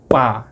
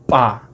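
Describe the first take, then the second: Both takes have the same delivery.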